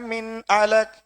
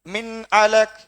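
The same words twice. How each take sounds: No difference in how they are said.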